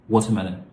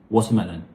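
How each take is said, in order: The two takes are said the same way.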